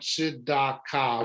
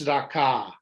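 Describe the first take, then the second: First: It is said slowly, syllable by syllable. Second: It is said quickly as one smooth word. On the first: "right now we're still just going" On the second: "once you're reading it quickly"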